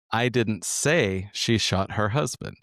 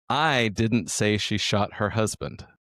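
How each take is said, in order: First: "say" stressed, slow, rising end. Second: "I" stressed, slow, falling end. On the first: Second take for the co-host, stress on "say". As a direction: lean on "say" in "I didn't say she shot her husband". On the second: Demoing the sentence to the co-host, stress on "I". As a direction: lean on "I didn't say she shot her husband". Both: Shown as a demonstration. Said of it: "we're gonna use the sentence".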